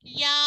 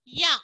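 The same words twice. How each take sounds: First: "యా" with a drawn-out long vowel. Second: "యా" with a short, quick vowel. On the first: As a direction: stretch the vowel of "యా" as a teacher shows it. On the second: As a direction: say "యా" cut short, without lengthening the vowel. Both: Shown as a demonstration. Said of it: "యాకు దీర్ఘం ఇస్తే".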